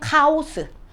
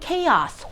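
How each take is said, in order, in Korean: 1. 한국식 외래어 발음이에요. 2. 영어 원래 발음이에요. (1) "우리 콩글리시는 카오스" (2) "영어는 chaos"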